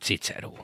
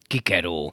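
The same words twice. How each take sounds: First: The c is said like a ts sound. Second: The c is said like a k sound. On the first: This is the traditional Hungarian pronunciation. "nem Cicero" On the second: This is the restored classical Latin pronunciation. "a latint úgy tanítják a Pesti Egyetemen is"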